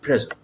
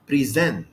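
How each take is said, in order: First: The stress is on the first syllable. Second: The stress is on the second syllable. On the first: It is a noun or adjective. "if it were used as a noun and adjective" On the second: It is a verb. "If it were used as a verb ... الاسترس بقت على المقطع الثاني"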